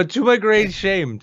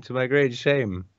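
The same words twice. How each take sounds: First: Mock dramatic. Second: Said in the usual way.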